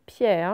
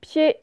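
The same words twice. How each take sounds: First: "pierre" said as "piè", no r; open, drawn-out è ending "piè" for "pierre"; mispronounced with è. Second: Said in the usual way. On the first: Shown as a demonstration. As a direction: say pied wrongly as "piè", in place of "pierre". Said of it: "ce n'est pas". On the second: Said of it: "c'est et".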